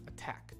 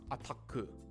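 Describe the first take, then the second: First: The word ends crisply on a k sound. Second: The word ends with an added u vowel. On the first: The speaker calls it right. "You want the k" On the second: The speaker calls it wrong. "You don't want the ku sound"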